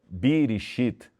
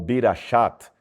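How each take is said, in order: First: The vowels are i, i, then i. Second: The vowels are i, a, then a. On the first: "e não Birishit" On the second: "ou Birashat"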